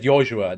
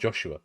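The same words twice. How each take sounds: First: The name is said with German pronunciation. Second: The name is said with English pronunciation. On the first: "that's a German way to say it. that's why I said Joshua" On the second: "not Joshua"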